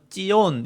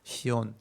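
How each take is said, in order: First: It begins with a tense jj sound. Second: It begins with a plain s sound. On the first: "쌍지읒 발음으로 하기도 하는데" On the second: "그냥 시온이라고 발음을 하는 거예요"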